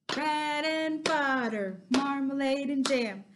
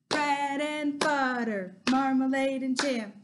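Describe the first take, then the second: Both takes have the same delivery.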